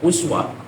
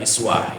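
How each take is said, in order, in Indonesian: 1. Kata ini diawali dengan vokal 'u'. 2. Kata ini diawali dengan vokal 'i'. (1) "uswah baris dhammah" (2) "dibaca kasroh, uh, iswah"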